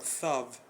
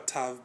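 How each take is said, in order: First: The word begins with a soft th sound. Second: The word begins with a plain t sound. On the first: This is the ancient ancestral form. "but thav" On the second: This is the form used today. "it was never tav"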